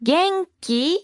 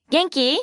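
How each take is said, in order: First: 元気 stretched out, higher, lifting on き; slow, rising intonation. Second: 元気 at natural speed, rising on き; rising intonation. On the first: Teacher shows learners the informal question, slow and rising. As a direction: say 元気 in two slow beats, rising at the end. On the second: Teacher models the informal question at natural pace, rising. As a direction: say 元気 as a quick question with a lifted end. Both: Shown as a demonstration. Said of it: "Please note the rising intonation".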